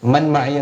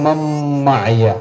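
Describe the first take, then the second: First: The n is pronounced separately before the m. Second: The n merges fully into the following m. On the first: The speaker calls it wrong. "എന്നല്ല" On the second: The speaker calls it right. "നൂനിന്റെ ഉച്ചാരണം വരില്ല"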